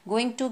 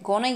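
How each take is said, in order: First: Every syllable of both words is said in full. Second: The words are run together into two short syllables. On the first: "गोइंग टू की जगह" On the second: "short forms"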